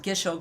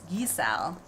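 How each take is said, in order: First: The word ends in a 'sho' sound. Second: The word ends in a 'sow' sound. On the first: The speaker calls it wrong. "Gisho greens is how I used to pronounce it" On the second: The speaker calls it right. "and then I realized it's gisao"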